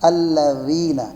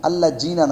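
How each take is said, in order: First: The middle consonant is a soft th-like sound. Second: The middle consonant is a hard z-like sound. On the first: The speaker calls it right. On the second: The speaker calls it wrong.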